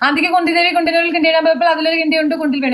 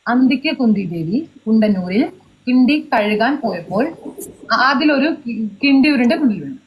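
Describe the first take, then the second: First: The sentence is said fast. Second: The sentence is said slowly.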